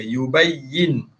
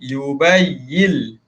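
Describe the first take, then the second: First: The word ends with a clear n sound. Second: The word ends with a light l sound. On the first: "asal bunyi dia yubayyin" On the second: "bunyikan lam sikit"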